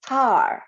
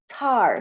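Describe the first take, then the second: First: The t has a puff of air. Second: The t has a puff of air.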